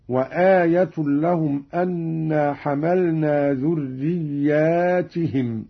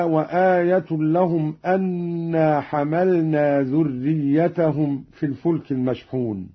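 First: ذرياتهم said dhurriyyaatihim with a long aa after the ya and an i on the ta, slowly; plural ذرياتهم. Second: Said in the usual way. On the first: Shown as a demonstration. Reciter showing students the plural reading ذرياتهم. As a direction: stretch the aa in ذرياتهم and give the ta an i. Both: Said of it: "بألف بعد الياء وكسر التاء هكذا".

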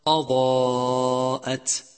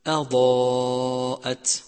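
First: أضاءت with a darkened hamza, chanted slowly; heavy hamza. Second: أضاءت with a thin hamza, chanted slowly; light hamza. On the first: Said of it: "مثال آخر". (همزة مفخمة خطأ) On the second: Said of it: "والصواب أن تقول". (همزة مرققة صحيحة) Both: Shown as a demonstration.

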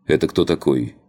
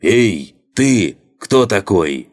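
First: Said in the usual way. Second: Loud call, pitched up high; shouting. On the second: A narrator's reading. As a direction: yell it out across the deck. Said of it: "озвучил мой вопрос во весь голос". (во весь голос)

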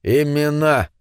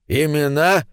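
First: "Имена" repeated as a statement, falling at the end; exclaimed repeat. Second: "Имена" echoed as a question, lifted toward the end. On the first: Gnome confirms to David, "Имена" said with falling tune. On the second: Gnome echoes David's question, "Имена" said questioningly. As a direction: ask "Имена" back, querying the word. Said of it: "переспросил первый гном". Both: A narrator's reading.

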